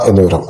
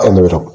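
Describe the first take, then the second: No difference in how they are said.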